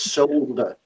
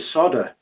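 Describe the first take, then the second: First: The word is said with an L sound. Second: The word is said without an L sound. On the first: The speaker calls it right. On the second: The speaker calls it wrong.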